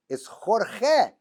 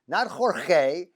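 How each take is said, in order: First: Jorge said the Spanish way, KHOR-kheh, both g's throaty. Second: Jorge said as the announcers do, with an h and a long ay ending; wrong Jorge. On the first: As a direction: Jorge with a rough kh sound in place of each g. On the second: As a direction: Jorge anglicised, HOR-hay. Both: Shown as a demonstration.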